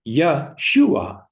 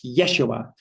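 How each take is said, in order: First: The stress is on the second syllable. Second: The stress is on the first syllable. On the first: The speaker calls it right. "because the focus is always on the second syllable" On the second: The speaker calls it wrong. "most people are pronouncing it Yeshua, because uh, we're always taught to rush, rush, and that the focus is always on the first syllable"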